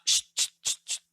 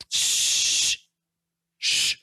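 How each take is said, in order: First: Quick, separate "shh, shh, shh" bursts; staccato shushing; short repeated shushes. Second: Long, drawn-out "shh"; sustained shushing sound. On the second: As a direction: hush with one sustained hiss. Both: Shown as a demonstration. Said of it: "tiene una acentuación diferente".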